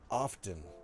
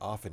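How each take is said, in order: First: The t sound is clearly pronounced. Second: The t sound is silent. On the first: The speaker calls it wrong. "Everyone stop going often" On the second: The speaker calls it right. "I grew up with often being often. It rhymes with soften"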